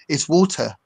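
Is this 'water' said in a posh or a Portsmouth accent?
posh. It is said in a posh accent. The children are being corrected. "they were constantly getting corrected by my wife"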